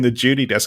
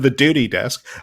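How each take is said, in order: First: The word begins with a J sound. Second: The word begins with a plain D sound. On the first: "with a J, ... I would sound more Australian" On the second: "instead of the duty desk"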